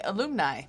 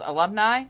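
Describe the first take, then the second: First: Alumni with a long OO in the middle, a-LOOM-nigh; alumni said wrong. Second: Said in the usual way. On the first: Shown as a demonstration. Speaker admitting her mispronunciation, alumni said as a-LOOM-nigh. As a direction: stretch the second syllable of alumni into "loom". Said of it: "I wanna say alumni". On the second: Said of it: "the proper word is alumni".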